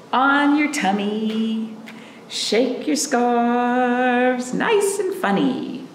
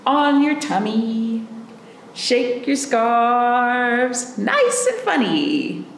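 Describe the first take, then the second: No difference in how they are said.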